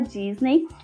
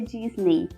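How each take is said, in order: First: The final vowel sounds like 'eh'. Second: The final vowel sounds like 'ee'. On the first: The speaker calls it wrong. "A gente fala Disney" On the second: The speaker calls it right. "mas a pronúncia é Disney"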